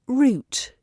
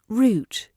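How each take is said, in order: First: It is said with a British accent. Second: It is said with a British accent.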